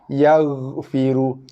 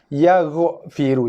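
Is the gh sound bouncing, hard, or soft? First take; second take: soft; bouncing. First: The gh sound is soft with a slight trail. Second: The gh sound is released with a bounce. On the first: The speaker calls it right. "Dia bunyi berekor sikit" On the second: The speaker calls it wrong.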